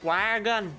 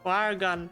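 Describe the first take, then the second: The two takes are said the same way.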